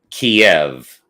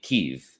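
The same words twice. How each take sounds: First: The name is said the Russian way. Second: The name is said the Ukrainian way. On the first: This is the older form the media used. "I think that was the Russian way of saying it" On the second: This is how the locals themselves say it. "No, we say it Kiev"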